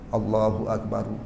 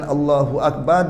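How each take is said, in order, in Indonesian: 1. Akbar diakhiri dengan vokal u tambahan. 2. Akbar diakhiri pada huruf r tanpa vokal. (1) "asal khabar itu kena baca Allahu Akbaru" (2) "sudah berlaku Allah, al-lahnu"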